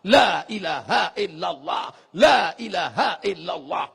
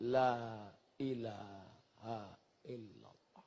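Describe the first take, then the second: First: Loud, slowed la ilaha illallah; loud zikir. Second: Very soft, slow la ilaha illallah, lips barely moving; whispered zikir. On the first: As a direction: call it out loudly. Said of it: "Itu tadi zikir kuat-kuat". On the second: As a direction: breathe it with the tongue only. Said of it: "bibir tak perlu bergerak". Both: Shown as a demonstration.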